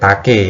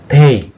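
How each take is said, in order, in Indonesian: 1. "E" terakhir dibaca sebagai vokal. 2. "E" terakhir tidak dibaca, berakhir pada "k". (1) "bukan take ya" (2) "e yang di belakang itu tidak terbaca"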